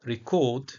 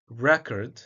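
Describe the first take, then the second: First: "record" as ri-CORD; weak first syllable, stress CORD in "record"; second-syllable stress. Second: "record" as REK-erd; first-syllable stress. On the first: Lecturer contrasting word meanings by stress, re-CORD. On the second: Lecturer contrasting word meanings by stress, REC-ord. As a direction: hit the first syllable of "record", reduce the second. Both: Shown as a demonstration. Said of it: "stress can change word meaning".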